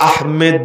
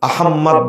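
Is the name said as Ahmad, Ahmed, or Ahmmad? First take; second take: Ahmed; Ahmmad. First: The second syllable has an e vowel. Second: The m is doubled before an o vowel. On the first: "এটাকে আহমেদ বলা যাবে না" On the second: "আহম্মদ বলা যাবে না"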